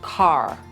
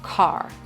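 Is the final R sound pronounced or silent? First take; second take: pronounced; pronounced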